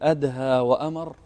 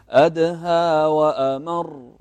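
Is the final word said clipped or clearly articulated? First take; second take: clipped; clear. First: The last word is clipped and unclear. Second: The last word is fully and clearly articulated. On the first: It sounds like someone gave an order. The speaker calls it wrong. "يعني كانه واحد امر بشيء" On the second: It means more bitter. The speaker calls it right. "وضحت الكلمه والمعنى"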